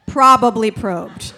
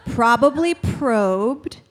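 First: Punchier repeat. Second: Slow deadpan. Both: Shown as a demonstration.

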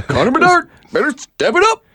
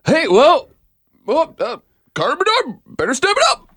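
First: High, laughing through it; Devin Peacock impression. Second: Much higher, pinched sportscaster voice; Devin Peacock impression. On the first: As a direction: imitate with a laugh breaking in. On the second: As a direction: do a high, exaggerated imitation. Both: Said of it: "That's my Devin Peacock impression".

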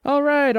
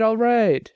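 First: Impatient. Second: Settling. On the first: Jenny brushing off the barman's nagging, impatient and high. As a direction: wave off the barman. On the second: Jenny giving in to the barman, settling down. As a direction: concede with a sigh. Brushing off J T, softer. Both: Acted.

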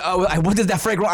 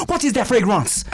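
First: Put-on "what is that fragrance" rushed, nearly plain, accent lost; fumbled accent redo. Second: Put-on "What is that fragrance" higher and laughing in a hammy French accent; mock French accent. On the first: Co-host trying to redo the bit, accent gone. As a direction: stumble through "what is that fragrance" failing to find the voice. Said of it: "I can't even do it". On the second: Co-host playing the African man, hammy French accent. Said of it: "The African dude's French?".

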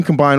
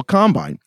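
First: "combine" as a verb, com-BINE; stress on second syllable. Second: "Combine" as a noun, COM-bine; stress on first syllable. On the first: On the second syllable to show it's. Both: Shown as a demonstration.

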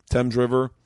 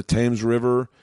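First: THAMES said with a short E, like "temz"; corrected pronunciation. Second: THAMES said with a long A, like "tames"; mispronunciation. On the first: Correcting himself mid-story, Thames said as "temz". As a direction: say Thames to rhyme with "gems". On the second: Telling a London trip story, Thames misread as "tames". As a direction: say Thames to rhyme with "names". Corrects own saying of Thames. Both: Real, not acted.

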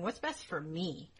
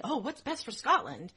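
First: Slower, understated self-serving aside; mock self-interest. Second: Higher-pitched, lightly mocking show of concern; mock public-spirited concern. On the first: Nobles looking out for themselves, mock self-interest. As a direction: weigh it up slowly, only for yourself. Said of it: "No, they're going". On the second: Nobles pretending to care for the country, mock concern. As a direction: put on a little civic-minded concern. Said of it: "They weren't going".

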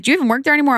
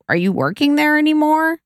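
First: High, pointed mom question; imitating mother. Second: High, pointed mock question; throwing slight shade. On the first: Mom questioning daughter's job, imitated higher. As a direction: pitch up as a doubting mom. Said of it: "she's like". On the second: Mom asking daughter about her job, slight shade. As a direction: imitate a mom needling, pitched up. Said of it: "a little shade".

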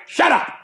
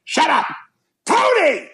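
First: High sharp "Shut up"; imitating Tony's shut up. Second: High mocking "Shut up, Tony"; mocking mother's retort. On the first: Tony telling his wife to shut up, sharp and high. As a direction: bark it at the wife, pitched high. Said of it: "he just tells his wife". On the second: Mother mocking Tony at the table, high mimicking snap. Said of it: "he immediately looks at her and goes".

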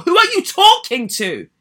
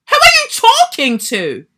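First: Higher, louder indignant challenge. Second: Much higher, much louder furious cry; outraged shout. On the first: Confronting the nursery owner over her email, indignant. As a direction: demand it, affronted. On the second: Yelling at the nursery owner over her email, outraged. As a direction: blast it out, fully affronted. Repeats it even harder. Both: Real, not acted.

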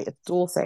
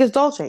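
First: "Dulce" said the Spanish way with an s sound; "Dulce" with Spanish vowels, no ch; Spanish pronunciation. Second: "Dolce" said the Italian way with a ch sound, high; mock-correcting, "Dolce" as DOLE-chay; high, imitated Italian-style "Dolce"; Italian pronunciation. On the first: Retold or imitated. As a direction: say "Dulce" as DOOL-say. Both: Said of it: "My name is Spanish and not Italian".

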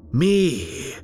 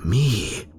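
First: Me flung up very high in mock disbelief; shrill mocking echo. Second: Rising, questioning Me; incredulous question. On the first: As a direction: echo Me much higher, scoffing at the idea. Killer mocks the very idea. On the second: Acted. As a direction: ask Me lightly, a little higher. Killer asks himself, incredulous.

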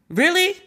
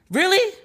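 First: High, rising mock disbelief. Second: High rising disbelieving question; mock disbelief again, stretched. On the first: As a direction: act stunned, pitch up. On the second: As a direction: pitch it up in fake shock. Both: Mock incredulity at the editors.

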